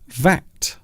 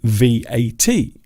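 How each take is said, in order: First: It is said as one word, like vat. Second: Each letter is said separately: V, A, T. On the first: "pronounce it as the word V A T. It rhymes with cat" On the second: "But some people also say V A T"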